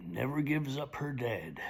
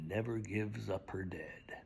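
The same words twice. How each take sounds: First: Said in the usual way. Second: Hushed, low whisper; whispered refrain. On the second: Acted. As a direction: drop it to a whisper.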